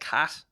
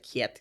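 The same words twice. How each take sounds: First: It is said in a southern Irish accent. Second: It is said in a Newry accent.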